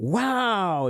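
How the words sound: It sounds bright and excited. The speaker is impressed. "is like, wow, that's great"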